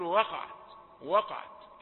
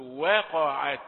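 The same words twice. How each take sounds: First: "وقعت" quickly spoken with dark wa; casual "وقعت", w coloured by the qaf; everyday thick waw. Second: "وقعت" measured, thin we then dark qa; light waw. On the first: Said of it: "ناس كتير تقول". ("وقعت" بواو مفخمة كالكلام العادي) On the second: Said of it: "رقيقة". ("وقعت" بواو رقيقة متأنية) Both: Shown as a demonstration.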